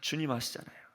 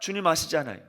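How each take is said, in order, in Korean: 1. 조금 더 작은 소리로 말합니다. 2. 가장 큰 소리로 말합니다.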